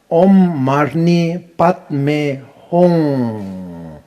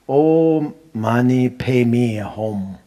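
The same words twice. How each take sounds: First: "Om Mani Padme Hum" drawn out very slowly, syllables stretched; slow correct mantra. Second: "money, pay me a home" said slowly like English words; mock mispronounce it as "pay me a home"; wrong mantra. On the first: Shown as a demonstration. Teacher modelling correct pronunciation, very slow and open. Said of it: "cannot be closed". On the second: Teacher imitating sloppy chanters, slow mocking mispronunciation. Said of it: "It's no good".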